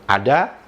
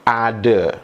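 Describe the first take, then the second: First: The final vowel is a full a sound. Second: The final vowel is an e sound. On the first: This is the standardized pronunciation. "betul-betul sama seperti bagaimana rakyat Indonesia mengucapkan" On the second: This is the common Malaysian pronunciation. "Kosakata ada diucapkan menjadi ada"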